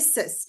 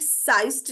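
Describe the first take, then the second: First: The vowel is a short 'i' sound. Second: The vowel is a long 'eye' sound. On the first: The speaker calls it right. "ये सिस्ट है" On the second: The speaker calls it wrong. "साइस्ट नहीं है ये"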